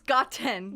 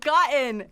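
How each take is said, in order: First: The T sound is clearly and crisply released. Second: The T sound is swallowed, not clearly released. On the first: The speaker calls it right. "It's gotten" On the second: The speaker calls it wrong. "It's not gotten"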